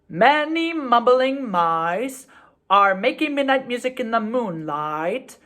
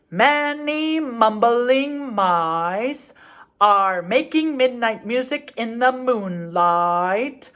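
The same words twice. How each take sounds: First: The phrase is said at a faster pace. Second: The phrase is said at a slower pace. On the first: "It sounds like this" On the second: "Let's slow it down a little bit"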